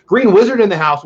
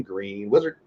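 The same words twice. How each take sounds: First: Loud, high welcome call; excited shout-out. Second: "Green Wizard" said softly, lower and quieter; quietly savoring. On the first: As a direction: announce the name with delight. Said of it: "I like saying that". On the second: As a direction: repeat it softly, relishing the name. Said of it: "So I'm gonna say it again". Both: Real, not acted.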